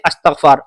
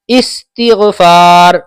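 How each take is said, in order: First: The word begins with an 'a' vowel sound. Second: The word begins with an 'i' vowel sound. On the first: The speaker calls it wrong. "बाज लोग कहते हैं अस्तगफार, अस्तगफार नहीं है, गलत है" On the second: The speaker calls it right. "इस हमजा पे जेर होना चाहिए"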